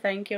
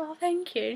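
First: Said in the usual way. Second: Imitated American thank-you, pitched high; high-pitched take on an American accent. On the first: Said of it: "She said in her accent". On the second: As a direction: mimic her American accent, higher and soft. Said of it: "She said in her accent, and she sounds so different".

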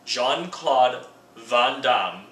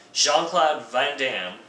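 First: "Jean-Claude Van Damme" drawn out slowly, French-style, with open "ah" vowels; "Jean-Claude Van Damme" in a slow mock-French pronunciation. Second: Said in the usual way. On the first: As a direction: say "Van Damme" as "Vahn Dahm", slow and emphatic. Repeats name in French manner.

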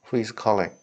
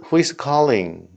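First: Said in the usual way. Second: Slow model phrase. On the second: Shown as a demonstration. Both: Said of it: "이런 표현이요".

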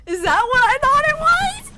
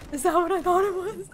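First: Very high, loud shriek; screamed disbelief. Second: Louder, higher astonished question; excited disbelief. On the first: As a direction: shriek the question in total shock. Screaming at the reveal. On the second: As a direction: ask it urgently, voice lifting. Disbelief at reveal, building. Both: Real, not acted.

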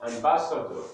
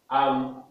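First: Said in the usual way. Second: "Ambassador" in four well-spaced syllables; syllabified. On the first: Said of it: "we are going to syllabify words". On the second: Shown as a demonstration. Teacher showing four syllables, "Ambassador" split between the s's. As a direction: say "Ambassador" as am, bas, sa, dor, pausing between. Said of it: "It has four syllables".

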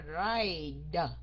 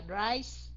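First: "ride" slow, with a separately released D; clear D ending. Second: "rise" ending in a hissed S. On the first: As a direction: stretch "ride" and sound out the final D. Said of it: "còn một cái là ride". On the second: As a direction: finish "rise" on a clear S sound. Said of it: "C E là phát âm thành chữ S". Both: Shown as a demonstration.

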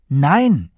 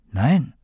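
First: Loud, higher, falling NEIN; firm, insistent "Nein"; emphatic denial. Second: Said in the usual way. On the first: Acted. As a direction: hit "Nein" hard, pitched up then dropping. Repeated, firmer denial to grandmother.

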